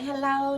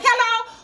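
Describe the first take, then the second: First: It is said in a soft, sweet, sexy voice. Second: It is said loudly in an angry, yelling voice.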